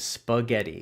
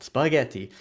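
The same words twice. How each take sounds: First: It is said with an English pronunciation. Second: It is said with an Italian accent. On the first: "the English version of that word is spaghetti" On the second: "that's my Italian accent"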